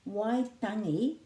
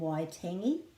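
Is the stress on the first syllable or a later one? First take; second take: first; later. First: The stress is on the first syllable. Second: The stress is on a later syllable. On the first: The speaker calls it right. "the emphasis is on the first syllable wai" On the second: The speaker calls it wrong. "rather than"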